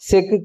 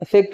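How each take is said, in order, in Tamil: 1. இறுதி உகரம் முழுமையாக ஒலிக்கிறது. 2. இறுதி உகரம் குறுகி ஒலிக்கிறது. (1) "இதை வந்து ஒரு முற்றிலுகரம் போலவே நம்ம உச்சரிக்கிறோம்" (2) "தனியா நம்ம சொல்லி பார்த்தீங்கன்னா தெரியும், அது ஒரு குற்றியலுகரம்"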